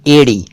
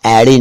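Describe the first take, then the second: First: "एड़ी" corrected to EY-ree; correct close vowel. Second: "एड़ी" mispronounced as AE-ree; broad ai opening "एड़ी"; wrong open vowel. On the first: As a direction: say "एड़ी" with a narrow pure ay. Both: Shown as a demonstration. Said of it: "एड़ी नहीं".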